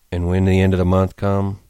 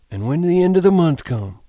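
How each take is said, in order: First: Wooden monotone. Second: High, loud, eager cue; feed him the line in a raised voice; eager Lenny prompt. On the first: George echoing Lenny's cue, wooden monotone. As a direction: repeat it with no feeling. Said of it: "His voice was monotonous". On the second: Lenny prompting George's familiar speech, eager high voice. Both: A narrator's reading.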